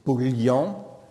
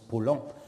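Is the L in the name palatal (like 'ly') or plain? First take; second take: palatal; plain. First: The L is palatal, followed by a y-glide. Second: The L is plain, with no y-glide after it. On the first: This is how it ought to be said. The speaker calls it right. "qu'on devrait prononcer Paulian" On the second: This is how people commonly say it. The speaker calls it wrong. "qu'on prononce Paulhan"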